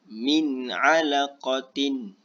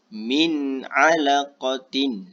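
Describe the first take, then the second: The two takes are said the same way.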